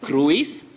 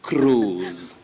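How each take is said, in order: First: The i is sounded as a separate vowel. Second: The vowel is one long oo sound. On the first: The speaker calls it wrong. "Don't say cruise" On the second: The speaker calls it right. "the I is silent. So the sound O becomes elongated. Now it's a long sound"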